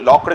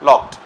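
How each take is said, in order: First: The word ends with a d sound. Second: The word ends with a t sound. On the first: The speaker calls it wrong. "కాదు" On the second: The speaker calls it right. "డీని మనము టీలా పలుకుతాం"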